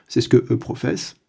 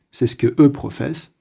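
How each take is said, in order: Both takes have the same delivery.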